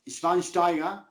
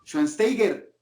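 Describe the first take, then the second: First: Schweinsteiger said SHVAIN-shtai-ga; German pronunciation. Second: Schweinsteiger said SHUAN-STEI-ger; Hispanicized pronunciation. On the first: Shown as a demonstration. Narrator quotes his criticized version, German pronunciation. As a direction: say Schweinsteiger with "sht" and no final r. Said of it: "¿por qué le dices". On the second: Retold or imitated. Narrator quotes critics correcting him, Hispanicized pronunciation. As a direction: say Schweinsteiger Spanish-style, "shuan-STEY-ger", r sounded. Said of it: "si es Schweinsteiger".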